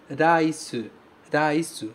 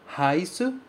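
First: "Rice, rice." with a tapped R, rai-su; Japanese rice. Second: "rice," with a guttural Portuguese R, ha-su; the mistake, "rice," with a throaty R; wrong guttural R. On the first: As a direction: model "Rice, rice." with the Japanese flap R. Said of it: "Você sempre vai pronunciar o R como ra". ("Rice, rice." com R batido, como em arara) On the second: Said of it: "nenhum japonês vai entender". ("rice" com R aspirado, como o erro comum) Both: Shown as a demonstration.

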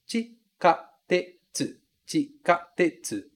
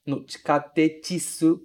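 First: "Chikatetsu" slowly, chi-ka-te-tsu, four clear syllables; slow syllable drill. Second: "chikatetsu" ending in "tetisu", an extra i added; teacher shows the mistake "chikatetisu"; wrong final i. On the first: Teacher drills students slowly on "Chikatetsu". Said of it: "São quatro sílabas". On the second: Teacher warns students: "chikatetsu" with a wrong added i. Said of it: "não colocar esse i no final". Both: Shown as a demonstration.

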